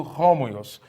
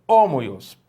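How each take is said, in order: First: Homoios with an h at the start; aspirated. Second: Homoios said with no h, vowel first; without aspiration. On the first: Teacher shows the aspirated reading. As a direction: add a breath before homoios. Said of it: "então eu leio". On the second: Teacher shows the reading without breathing mark. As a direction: drop the h in homoios. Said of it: "Se não tivesse essa aspiração". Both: Shown as a demonstration.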